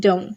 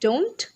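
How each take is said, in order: First: "down" said as "dohn", no T; T dropped. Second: "don't" with the T sounded, rising; full T. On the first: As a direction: let "don't" stop on the N. ("down" यानी "डोन", ट हटाकर) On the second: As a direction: close "don't" on a clear T. ("don't" में ट साफ़) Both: Shown as a demonstration. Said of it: "बस ट हटेगा".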